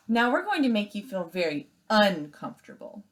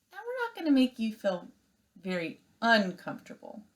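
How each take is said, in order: First: Said in the usual way. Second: Misread line. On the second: Shown as a demonstration. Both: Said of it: "Oh, I'm sorry".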